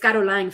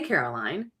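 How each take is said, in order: First: The name is said with a foreign accent. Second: The name is said with English pronunciation. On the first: Her own way of saying her name. "but it's Caroline for me" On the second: An accommodating version for other speakers. "You can say Caroline"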